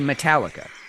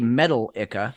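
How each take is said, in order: First: The stress is on the second syllable. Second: The stress is on the first syllable. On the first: The speaker calls it right. "we say Metallica" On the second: The speaker calls it wrong. "we don't say metal-ica"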